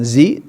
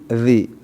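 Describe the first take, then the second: First: The consonant is made with the tongue behind the teeth. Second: The consonant is made with the tongue between the teeth. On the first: The speaker calls it wrong. "Bukan zi" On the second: The speaker calls it right. "Lidah keluar"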